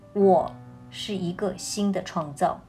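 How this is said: The stress is on the word 我.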